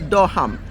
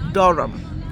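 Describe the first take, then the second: First: The h sound is pronounced in the middle. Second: The h sound is silent in the middle. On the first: The speaker calls it wrong. "we would say Durham, but no" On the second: The speaker calls it right. "that H is silent, so it's Durham"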